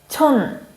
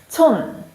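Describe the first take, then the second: The two takes are said the same way.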